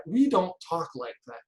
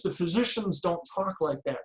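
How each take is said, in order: First: We punched as the key word; stress on we. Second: Physicians stressed with a falling tune. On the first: Speaker to conference audience, stress on We. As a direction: hit We, not physicians. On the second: Speaker to conference audience, stress on physicians. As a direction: lean on the word physicians. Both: Shown as a demonstration.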